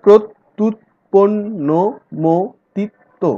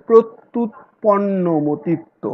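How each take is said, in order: First: প্রত্যুৎপন্নমতিত্ব very slow, syllable by syllable; syllable demo ahead of counting them; syllable split. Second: প্রত্যুৎপন্নমতিত্ব said slowly and carefully; slow model of a long word; slow careful reading. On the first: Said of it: "এক, দুই". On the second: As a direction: read প্রত্যুৎপন্নমতিত্ব slowly for the class. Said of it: "একটি বড় শব্দ তোমাদেরকে দিয়েছি". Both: Shown as a demonstration.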